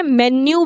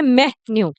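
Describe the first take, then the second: First: "मेन्यू" joined as men-nyoo; wrong pronunciation. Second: "मेन्यू" in two beats, me-nyo; correct pronunciation. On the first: Teacher rejecting this form, mispronounced run-together "मेन्यू". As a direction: say "मेन्यू" with closed men, no gap. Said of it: "भी नहीं बोलते हैं". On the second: Teacher giving learners the right form, careful split "मेन्यू". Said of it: "इसको बोलते हैं". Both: Shown as a demonstration.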